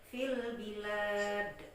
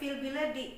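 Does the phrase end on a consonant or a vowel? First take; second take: consonant; vowel. First: The phrase ends on a stopped consonant. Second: The phrase ends with a final vowel sound. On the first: The speaker calls it right. "maka menjadi fil bilad" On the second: The speaker calls it wrong. "bila kita berhenti jangan dibaca fil biladi"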